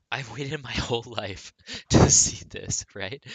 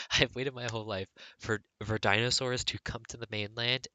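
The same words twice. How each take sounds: First: "waited" said loud, laughing through it. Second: Said in the usual way. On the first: Real, not acted. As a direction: laugh your way through "I've waited my whole life". Laughs through excited line.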